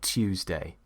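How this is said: It is said in a British accent. "If you want to sound more British"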